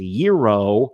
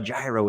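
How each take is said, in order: First: The word begins without a sounded G. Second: The word begins with a sounded G. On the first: The speaker calls it right. "It's a silent G" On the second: The speaker calls it wrong. "All these years I was calling them a gyro"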